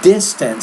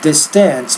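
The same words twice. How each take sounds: First: The stress is on the first syllable. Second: The stress is on the second syllable. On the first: The speaker calls it right. "So stress is on the first syllable, not the second syllable" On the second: The speaker calls it wrong. "not distance"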